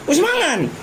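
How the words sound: It is said loudly and forcefully, almost shouted. "Dia teriak dia, ada tekanan gitu ya"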